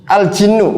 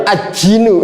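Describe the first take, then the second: First: Al-jinnu with the lam clearly sounded; correct reading. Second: Al-jinnu with the l merged into the j as aj-jinnu; wrong reading. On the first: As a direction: say Al-jinnu, pronouncing the l before jinnu. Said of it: "Nggak boleh". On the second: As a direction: say al-jinnu as aj-jinnu, dropping the lam. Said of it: "nggak boleh al-jinnu". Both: Shown as a demonstration.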